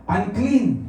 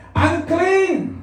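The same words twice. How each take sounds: First: Said in the usual way. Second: High-pitched cry of warning; leper's warning shout. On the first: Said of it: "isisigaw nila?". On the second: Acted. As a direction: shout it out so people move aside. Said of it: "Sisigaw siya".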